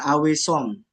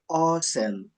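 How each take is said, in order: First: The first vowel is not an 'o' sound. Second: The first vowel is an 'o' sound. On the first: The speaker calls it wrong. "bukan awesome" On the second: The speaker calls it right. "Aw itu dibacanya O"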